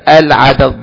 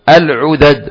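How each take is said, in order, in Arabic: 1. الحركة الأولى هي صوت 'a'. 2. الحركة الأولى هي صوت 'u'. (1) "عين مفتوحة" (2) "فبدلا من عين مفتوحة اجعلها مضمومة"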